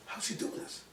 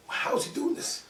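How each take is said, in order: First: Hushed wonder. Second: High-pitched, incredulous question; astonished. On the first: Doctor wondering aside to colleagues. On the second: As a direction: ask it again in amazement, pitch jumping. Doctor's astonished repeat to colleagues. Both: Retold or imitated.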